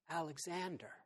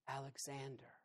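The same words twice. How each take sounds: First: It is said a little louder. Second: It is said quietly and timidly.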